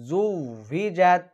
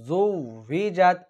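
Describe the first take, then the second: Both takes have the same delivery.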